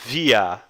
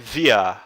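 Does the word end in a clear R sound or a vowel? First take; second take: vowel; vowel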